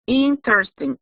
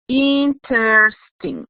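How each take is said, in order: First: Said in the usual way. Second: Slowly drawn-out interesting, each syllable spelled out; teacher dictating interesting slowly; slow model word. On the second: Shown as a demonstration. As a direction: stretch interesting out slowly for the class. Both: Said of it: "It has three syllables".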